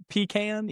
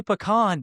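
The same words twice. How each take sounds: First: Pecan with a long EE up front; pecan as PEE-can. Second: Pecan stressed on a long AH ending; pecan as puh-KAHN. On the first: Host doubting his word, pecan as PEE-can. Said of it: "am I supposed to say pecan?". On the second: Host insisting on his own pecan, said puh-KAHN. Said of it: "I'll be like". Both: Shown as a demonstration.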